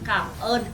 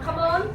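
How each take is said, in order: First: The two words are said slowly and separately. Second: The two words are run together quickly. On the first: It politely says thank you. The speaker calls it right. "It's like two different words separately" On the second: It sounds like a phrase meaning shut up. The speaker calls it wrong. "people normally say it very fast and it sounds like come on"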